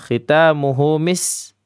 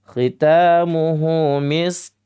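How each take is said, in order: First: The last word ends with an s sound. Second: The last word ends with a k sound. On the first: The speaker calls it wrong. "Hanya khitamuhu mis. Kebanyakan seperti itu" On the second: The speaker calls it right. "Nah, begitu ya"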